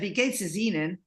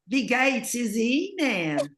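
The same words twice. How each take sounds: First: It is said with a standard German accent. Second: It is said with a Southern US accent. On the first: "that's how you would say it" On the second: "I would do a southern accent with that"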